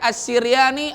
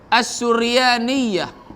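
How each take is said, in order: First: The first syllable has the vowel i. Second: The first syllable has the vowel u. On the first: "baris kasrah" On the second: "baris dhammah"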